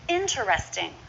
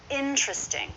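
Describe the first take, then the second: First: The word is said with four syllables. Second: The word is said with three syllables. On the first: The speaker calls it wrong. "Not interesting" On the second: The speaker calls it right. "go with the most common pronunciation"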